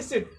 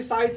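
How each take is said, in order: First: सिट with a short i vowel. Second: साइड with an "eye" vowel; long i in साइड. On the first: Teacher showing the three-letter reading, सिट with short i. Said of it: "आई का इसमें क्या हो रहा था". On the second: Teacher showing the mistaken reading, साइड with an "eye" vowel. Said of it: "साइड गलत हो गया ना". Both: Shown as a demonstration.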